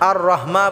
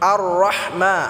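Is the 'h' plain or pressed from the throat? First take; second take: plain; pressed. First: The 'h' is a plain, light breathy sound. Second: The 'h' is pressed deep in the throat. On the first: The speaker calls it wrong. "শুধু হা হয়ে যাবে, তখন এটা ভুল উচ্চারণ হবে" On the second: The speaker calls it right. "গলায় চাপ দিয়ে উচ্চারণ করতে হবে"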